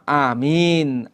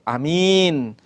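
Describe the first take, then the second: First: The first vowel is held long. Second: The first vowel is kept short. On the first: "A-nya itu satu alif" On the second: "amin bil qasr"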